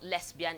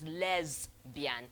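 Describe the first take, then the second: First: The middle consonant is a hissing s sound. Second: The middle consonant is a buzzing z sound. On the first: The speaker calls it wrong. "it's not" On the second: The speaker calls it right.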